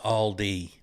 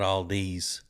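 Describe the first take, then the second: First: The name ends without an s sound. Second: The name ends with an added s sound. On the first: The speaker calls it right. "it is Aldi" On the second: The speaker calls it wrong. "not Aldi's"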